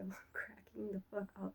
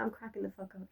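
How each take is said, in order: First: Hushed, breathy through a laugh; whispered laugh. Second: Said in the usual way. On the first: Real, not acted. To viewers, remembering her own posts, whispered through laughter. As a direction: let it slip out under a giggle.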